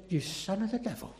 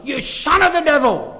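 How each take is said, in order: First: Hushed quote. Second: Loud, forceful "You son of the devil"; strong denunciation. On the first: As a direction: say it softly first, almost under the breath. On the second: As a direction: thunder it out like Paul condemning. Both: Retold or imitated. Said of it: "Very strong language".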